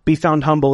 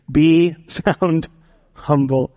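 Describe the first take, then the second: First: Said in the usual way. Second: A laugh breaks into the line; chuckling through the words. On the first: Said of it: "write this down". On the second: Real, not acted.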